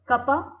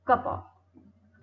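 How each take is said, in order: First: The words merge, and 'of' becomes a short vowel. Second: The words are said separately, with a full 'of'.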